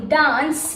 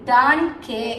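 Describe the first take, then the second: First: The c is said as an s sound. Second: The c is said as a k sound. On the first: The speaker calls it right. "the sound has become soft and becomes is sound" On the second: The speaker calls it wrong. "It's not danke"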